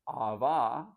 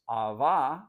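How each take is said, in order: No difference in how they are said.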